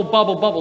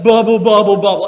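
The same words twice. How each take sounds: First: Said in the usual way. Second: Loud, bouncy bubble, bubble; playful loud bubbling for the kids; bubbly jellyfish sound. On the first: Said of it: "you're gonna hear the words bubble". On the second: Shown as a demonstration. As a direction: pop each bubble like a jellyfish. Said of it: "I want you to go".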